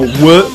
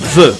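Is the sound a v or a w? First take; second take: w; v. First: The sound is a w, with rounded lips. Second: The sound is a v, with teeth on lip. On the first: The speaker calls it wrong. "et non W, comme dans week-end" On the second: The speaker calls it right. "se prononce V, comme dans wagon"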